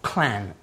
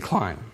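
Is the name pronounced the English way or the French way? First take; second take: French; English. First: The name is said with a French pronunciation. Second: The name is said with an English pronunciation.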